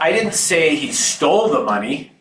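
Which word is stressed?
stole. The word 'stole' carries the stress. He may have taken it some other way. "He might have borrowed it"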